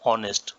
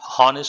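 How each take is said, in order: First: The word begins directly with a vowel sound. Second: The word begins with an audible h sound. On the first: The speaker calls it right. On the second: The speaker calls it wrong. "హానెస్ట్ అనకూడదు"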